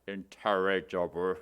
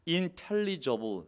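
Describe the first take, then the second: First: The L is pronounced like an R sound. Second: The word is said with a clear L sound.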